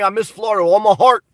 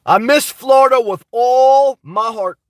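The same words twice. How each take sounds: First: Said in the usual way. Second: Slow, drawn-out stress on "all my heart"; emphatic drawn-out repeat. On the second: Real, not acted. Streamer missing Florida tells viewers, slowly and emphatically. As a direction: stretch "all" long and spell out "my heart".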